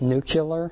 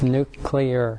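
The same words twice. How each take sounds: First: The ending is said like 'cu-lar'. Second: The ending is said like 'clee-ar'. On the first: The speaker calls it wrong. "we have a president that pronounces it" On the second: The speaker calls it right. "if you get anything out of this class, it's"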